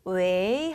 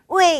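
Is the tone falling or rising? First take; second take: rising; falling. First: It is said with a soft rising tone. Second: It is said with a strong falling tone. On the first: Answering the phone, like saying hello. "이성으로 자연스럽게 올리면 여보세요" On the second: Calling out to get someone's attention. "이렇게 강하게 읽을 때는"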